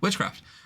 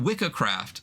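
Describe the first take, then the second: First: The first part ends in a ch sound. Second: The first part ends in a hard k sound. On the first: "a C after an I or E is a C H" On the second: "Although I would say that's definitely Wicca"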